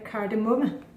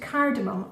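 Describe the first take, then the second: First: The word is pronounced the Danish way. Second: The word is pronounced the English way.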